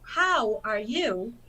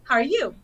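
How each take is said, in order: First: Each word is said fully and separately. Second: The words are shortened and run together.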